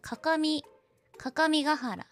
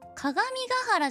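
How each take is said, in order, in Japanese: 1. 2番目の音は k の音で言う。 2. 2番目の音は g の音で言う。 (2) "かがみがはらじゃない"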